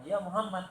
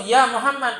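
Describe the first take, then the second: First: Said in the usual way. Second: Calling out loud and a bit higher. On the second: Retold or imitated. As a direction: shout the name across the crowd like a villager. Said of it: "memanggil Nabi dengan suaranya yang lantang dan keras". (panggilan lantang dan keras)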